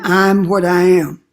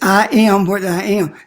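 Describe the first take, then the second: First: The first 'I am' is contracted into one syllable. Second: The first 'I am' is said as two words. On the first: It is a slothful, weakened mention of the self. The speaker calls it wrong. "Instead of saying" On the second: It is a bold statement of the self. The speaker calls it right.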